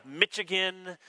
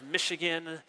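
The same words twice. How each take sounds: First: "Michigan" with a hard "ch" as in "itch"; mispronounced Michigan. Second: Said in the usual way. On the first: Retold or imitated. English host mispronouncing his home state, "Michigan" said MITCH-igan. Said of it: "mispronounce the, the name". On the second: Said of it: "instead of Michigan".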